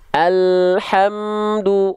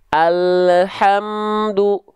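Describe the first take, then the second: First: The L runs straight into the H. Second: A short e vowel follows the L. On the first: The speaker calls it right. "Ketika le-nya turun, ha-nya keluar bareng" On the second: The speaker calls it wrong. "jangan sampai"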